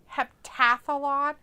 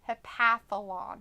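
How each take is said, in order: First: It is said with a T after 'hep'. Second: It is said without a T after 'hep'. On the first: "That sounds stupid" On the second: "It's H E P A T H"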